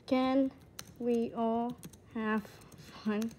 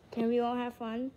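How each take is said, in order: First: Slow, with a gap between words. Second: Said in the usual way. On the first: Pretend. Player asking everyone for fun, word by word. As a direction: space out the question word by word. Same question word by word, then whole.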